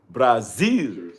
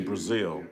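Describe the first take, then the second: First: It is said with a Portuguese-style accent. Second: It is said with a plain English accent. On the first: The speaker calls it right. "You got to say Brazil. Got to say it right" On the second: The speaker calls it wrong. "you can't just say Brazil"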